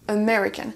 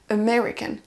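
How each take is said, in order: First: The stress is on the second syllable. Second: The stress is on the second syllable.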